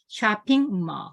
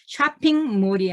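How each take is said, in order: First: The final L is a vowel-like sound. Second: The final L is a clear consonant. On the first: The speaker calls it right. "발음은 자음이 아니에요. 모음이에요" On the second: The speaker calls it wrong. "아니라"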